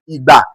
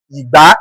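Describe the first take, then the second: First: "Igba" on a falling tone; tone demonstration. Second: "Igba" with a rising tone; tone demonstration. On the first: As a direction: let "Igba" sink at the end. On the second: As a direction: lift the second syllable of "Igba". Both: Shown as a demonstration. Teacher showing only tone changes, tone demonstration. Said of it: "it is only the tone that will change".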